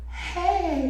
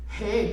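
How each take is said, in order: First: It is said in a put-on sultry seductive voice. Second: It is said in a put-on male caller voice. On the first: The phone-sex worker is answering. "that's me doing the phone sex voice" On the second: A caller is speaking. "when I do that voice, that's the guy that's calling"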